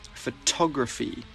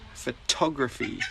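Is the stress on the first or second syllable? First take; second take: second; second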